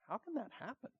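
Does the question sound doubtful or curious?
curious. It sounds curious, seeking understanding.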